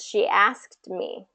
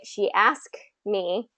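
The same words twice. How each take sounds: First: The ending sound of asked is lightly held. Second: The ending sound of asked is dropped entirely. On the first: The speaker calls it right. "There's just this slight ending there that kind of makes it that makes it sound correct" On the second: The speaker calls it wrong. "just sounds like a, a grammatical error"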